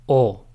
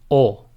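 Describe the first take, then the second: No difference in how they are said.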